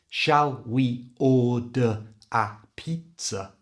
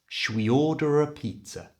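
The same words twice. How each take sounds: First: The words are said separately without linking or reduction. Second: The words are linked with a reduced 'ruh' sound. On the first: The speaker calls it wrong. "So the whole sentence is not" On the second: The speaker calls it right.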